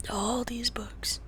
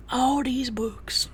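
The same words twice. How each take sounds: First: All these books, slow and breathy; slow whisper. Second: Said in the usual way. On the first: Real, not acted. Showing Pixel the books, slow whisper. Whispered then repeated aloud.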